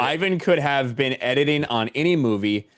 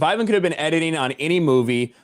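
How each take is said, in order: First: The sentence is spoken slowly. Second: The sentence is spoken quickly. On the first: The speaker calls it right. "I know I need to speak slowly" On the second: The speaker calls it wrong. "you said Ivan so fast it was hard to grasp that"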